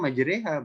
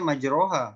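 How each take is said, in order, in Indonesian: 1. Vokal tengahnya berbunyi 'e'. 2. Vokal tengahnya berbunyi 'o'. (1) "Harusnya dibaca majreha" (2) "itu akan dibaca majroha"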